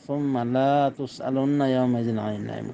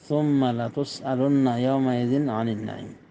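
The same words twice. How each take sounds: First: The vowel after the l is drawn out long. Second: The vowel after the l is short. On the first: They will not be asked about the blessings. The speaker calls it wrong. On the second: They will surely be asked about the blessings. The speaker calls it right.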